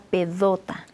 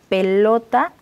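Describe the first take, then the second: First: The middle consonant is a D sound. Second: The middle consonant is an L sound. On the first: "cuando hacen una sustitución de ese sonido" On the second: "una palabra que la tenga intermedia"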